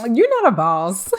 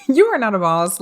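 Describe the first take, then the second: First: Loud, higher verdict; dismissive. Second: Said through a laugh, loud. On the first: Telling the ex off, loud and dismissive. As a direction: dismiss him like he's beneath you. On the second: Repeating the putdown to the ex, laughing. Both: Retold or imitated.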